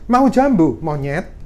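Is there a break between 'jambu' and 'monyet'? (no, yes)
yes. A break separates 'jambu' from 'monyet'. The listener is called a monkey. The speaker calls it wrong. "itu orangnya bisa marah"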